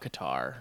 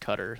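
First: Qatar is pronounced the American way. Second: Qatar is pronounced the local way.

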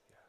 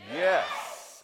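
First: It is whispered softly like a prayer. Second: It is spoken aloud in a full voice.

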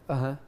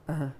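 No difference in how they are said.

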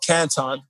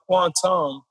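First: The name begins with a plain k sound. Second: The name begins with a kw sound. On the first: The speaker calls it right. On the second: The speaker calls it wrong.

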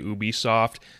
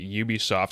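First: The first syllable does not sound like 'ubiquitous'. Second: The first syllable sounds like 'ubiquitous'. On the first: The speaker calls it wrong. "I used to say Ubisoft" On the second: The speaker calls it right. "finally pronouncing it Ubisoft"

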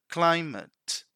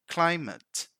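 The two takes are said the same way.

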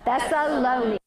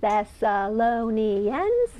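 First: It is said fast. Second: It is said slowly.

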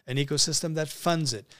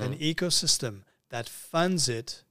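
First: The phrase is spoken at a normal pace. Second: The phrase is spoken slowly and deliberately.

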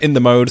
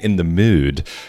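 First: The last word has a plain English 'oh' vowel. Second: The last word has a rounded 'oo'-like vowel.

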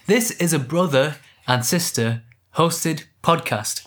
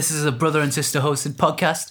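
First: The words are clearly and separately articulated. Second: The words are mumbled and run together. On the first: The speaker calls it right. "There we go" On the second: The speaker calls it wrong. "I mumbled that when I said it"

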